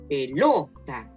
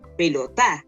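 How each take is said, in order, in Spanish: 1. La tónica es la de en medio. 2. La tónica es la última. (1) "Si fuera en la penúltima diría" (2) "Y si fuera en la última sería"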